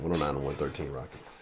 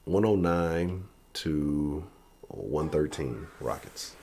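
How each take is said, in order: First: Said in the usual way. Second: Slow, deliberate, each number spaced out; slow drawn-out score call. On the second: Shown as a demonstration. Vlogger unveiling his score prediction, slow and deliberate. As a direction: announce the score slowly for effect. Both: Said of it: "That's gonna be my prediction".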